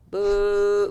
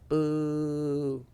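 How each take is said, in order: First: The boo is said a little louder. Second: The boo is said lightly and quietly.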